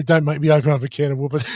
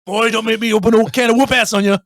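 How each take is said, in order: First: Said in the usual way. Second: Raised, loud threatening outburst; hammed-up warning, high and forceful; mock threat. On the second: Film quote threatening whoop-ass, mock angry. Same threat acted out harder.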